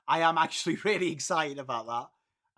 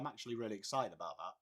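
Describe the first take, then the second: First: It is said with clear, lively enthusiasm. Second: It is said flatly, with no enthusiasm.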